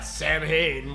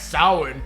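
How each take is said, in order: First: The word is said with the film's pronunciation. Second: The word is said with its traditional pronunciation. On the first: The speaker calls it wrong. "this is mispronounced" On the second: The speaker calls it right. "It's pronounced Samhain"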